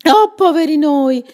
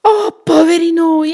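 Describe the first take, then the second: First: Echoing cry. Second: Cry of alarm. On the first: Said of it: "gli fece eco Graziella". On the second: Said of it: "Paolo gridò". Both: Acted.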